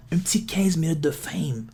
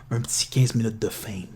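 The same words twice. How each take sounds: First: Un petit quinze minutes de fame whispered, unvoiced; whispering. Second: Said in the usual way. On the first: Real, not acted. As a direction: whisper the punchline. (en chuchotant) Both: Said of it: "repeated as whisper".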